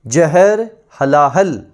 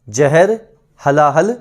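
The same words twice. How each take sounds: First: Very slow, each word drawn out; slow drill. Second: Said in the usual way. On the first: Shown as a demonstration. Teacher slowing the words so students memorise them. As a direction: spell out "जहर हलाहल" slowly for memorising. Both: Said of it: "विष को बोलते हैं".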